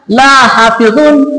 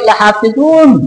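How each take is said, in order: First: The la is drawn out, set apart. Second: The la is short, joined to ha. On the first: Surely I do not guard it. The speaker calls it wrong. "Kalau dia dipanjangkan" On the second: Surely I will guard it. The speaker calls it right. "bukan la panjang, tapi dia bersambung dengan ha"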